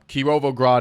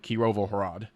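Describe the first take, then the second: First: It has a G sound before 'rad'. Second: It has an H sound before 'rad'. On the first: This is the Russian form of the name. "Kirovograd is like the Russian translation" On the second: This is the Ukrainian form of the name. "in Ukrainian they call it Kirovohrad, like with an H instead of a G"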